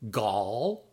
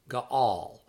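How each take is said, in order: First: It is said quickly as one syllable. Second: It is said as two separate syllables. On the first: "when it's read rapidly, it sounds simply like gall" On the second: "It has two syllables"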